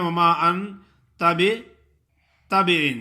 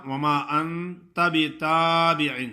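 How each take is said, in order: First: وَمَا without alif madd, short a; wrong demo. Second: وَمَا with full alif madd; correct demo. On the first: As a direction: imitate وَمَا said clipped. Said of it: "کچھ لوگ ایسے پڑھتے ہیں". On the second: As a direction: recite وَمَا with the long a. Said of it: "ہے تو اس طرح". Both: Shown as a demonstration.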